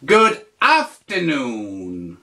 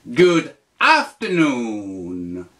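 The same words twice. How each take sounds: First: Slow, careful teacher model; slow model phrase. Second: Slow, lower repeat. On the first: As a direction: spell it out slowly. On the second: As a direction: repeat it slowly, a bit lower. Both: Shown as a demonstration. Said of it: "tu dis".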